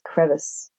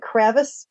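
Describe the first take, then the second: First: The first vowel is the usual one. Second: The first vowel is changed from the usual one. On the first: It is the ordinary pronunciation. "than just crevice" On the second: It is a playful home pronunciation. "I automatically pronounce it Kravis, because that's what we do at our house for fun"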